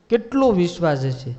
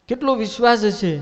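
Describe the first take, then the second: First: Said in the usual way. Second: Higher and louder, marvelling at કેટલો વિશ્વાસ; preacher marvelling aloud at કેટલો વિશ્વાસ; emphatic exclamation. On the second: Shown as a demonstration. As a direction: stress the wonder in કેટલો વિશ્વાસ હશે. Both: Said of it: "repeated exclamation".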